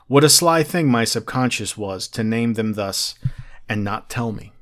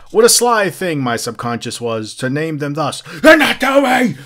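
First: It is read in a plain, low-energy way. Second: It is read with lively, energetic gusto. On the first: The speaker calls it wrong. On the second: The speaker calls it right.

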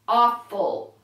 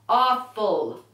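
The two takes are said the same way.

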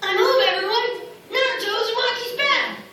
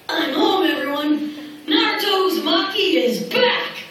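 First: The voice sounds like a young boy. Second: The voice sounds like an older teenager. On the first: The character is a child. "I would say something like this in the younger voice" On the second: The character has grown up. "if I said it in the older voice"

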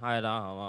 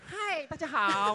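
First: The voice is flat and weary. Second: The voice is bright and energetic. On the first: This is how she usually comes across. "对他的印象应该就是非常的厌世" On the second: This is how she sounds in the film dubbing. "整个变了一个人"

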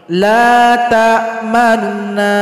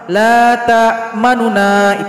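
First: The faint nu sound is said quickly. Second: The ma syllable is said quickly. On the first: The speaker calls it right. "ketika baca nu ini yang cepat" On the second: The speaker calls it wrong. "jangan cepat ketika baca ma ... itu salah"

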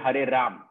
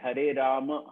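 First: The final vowel of Rama is left off. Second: The final vowel of Rama is fully pronounced. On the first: The speaker calls it wrong. "It cannot be" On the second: The speaker calls it right. "it has to be like that only"

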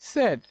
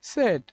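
First: The vowel is a short 'e' like 'bed'. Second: The vowel is a short 'e' like 'bed'.

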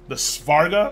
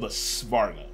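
First: The S sound is soft and brief. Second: The S sound is strong and drawn out. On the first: The speaker calls it wrong. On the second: The speaker calls it right.

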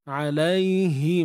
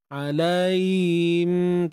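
First: The middle h sound is clearly heard. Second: The middle h sound is dropped. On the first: The speaker calls it right. "jelaskan sebutan" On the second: The speaker calls it wrong. "tak dengar kan"

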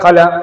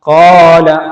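First: The vowel is not lengthened at all. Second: The vowel is held for two counts. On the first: The speaker calls it wrong. "നീട്ടാതെ" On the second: The speaker calls it right. "ഇവിടെ 2 ഹർക്കത്ത് ഉച്ചരിക്കാനുള്ള ഒരു സമയം മാത്രം നീട്ടിയാൽ മതി"

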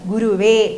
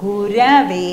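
First: The middle vowel is a 'u' sound. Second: The middle vowel is an 'a' sound. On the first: The speaker calls it wrong. "പല സ്ഥലത്തും പോകുമ്പോൾ പറയുന്നത് ഗുരുവേ എന്ന് പറയും" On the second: The speaker calls it right. "ഗുരുവേ അല്ല ഗുരവേ നമഃ"

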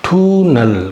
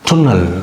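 First: The first vowel is long. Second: The first vowel is short. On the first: The speaker calls it wrong. "டூனல் கிடையாது" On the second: The speaker calls it right. "டுன்னல் அது மாதிரி கிடைக்கும்"

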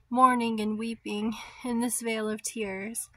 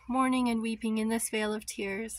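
First: The phrase is spoken at a slower pace. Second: The phrase is spoken at a faster pace.

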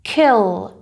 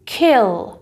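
No difference in how they are said.

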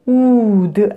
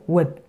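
First: The vowel is held long. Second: The vowel is cut short. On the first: The speaker calls it wrong. "wood 아니고요" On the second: The speaker calls it right. "짧게 나야 되죠"

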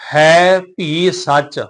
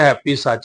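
First: The words are separate with an aspirated bh sound. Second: The words run together with a plain p sound. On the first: The speaker calls it right. "ਹੈਪੀ ਸੱਚ ਨਹੀਂ" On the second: The speaker calls it wrong. "ਕਈ ਕਾਹਲੀ ਨਾਲ ਪਾਰ ਕਰ ਜਾਂਦੇ"

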